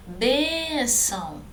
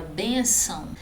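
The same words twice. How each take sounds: First: "Bênção" drawn out slowly on BÊN, then falling; stressed first syllable. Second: Said in the usual way. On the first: Shown as a demonstration. Teacher showing students the tonic syllable, long stressed BÊN in "Bênção". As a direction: stretch the first syllable of "Bênção", half speed. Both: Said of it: "a sílaba tônica é bem".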